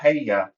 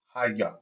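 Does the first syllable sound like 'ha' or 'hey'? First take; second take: hey; ha. First: The first syllable sounds like 'hey'. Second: The first syllable sounds like 'ha'. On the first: The speaker calls it wrong. "It's not Hey-ya" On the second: The speaker calls it right. "it's Ha-ya"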